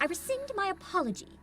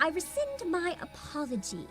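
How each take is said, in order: First: It is said in a clipped, military voice. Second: It is said in a girly voice.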